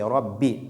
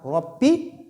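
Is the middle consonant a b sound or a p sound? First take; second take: b; p. First: The middle consonant sounds like a b. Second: The middle consonant sounds like a p. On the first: The speaker calls it right. "mais plutôt c'est robbi. Donc on utilise la lettre B ici" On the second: The speaker calls it wrong. "Ce n'est pas robbi"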